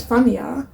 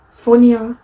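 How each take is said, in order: First: Said in the usual way. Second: "funnier" in a Northern English accent. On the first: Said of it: "Or rather, as you might say in the North". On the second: Shown as a demonstration. Vlogger correcting herself to how the North says it, "funnier" in a Northern accent. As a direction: say "funnier" as they would in the North of England. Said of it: "as you might say in the North".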